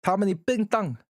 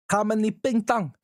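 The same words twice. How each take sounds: First: Mock Chinese-sounding gibberish, pitched up. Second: Mock Chinese. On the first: Teasing chat with mock Chinese gibberish. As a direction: fake Chinese, sing-song and teasing. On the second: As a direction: repeat the fake Chinese, pushed harder. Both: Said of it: "sound like you're just making fun of Chinese".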